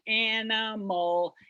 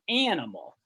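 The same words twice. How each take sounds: First: The stress is not on the first syllable. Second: The stress is on the first syllable. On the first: The speaker calls it wrong. "It's not an animal" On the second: The speaker calls it right. "that first sound is bigger than the other ones"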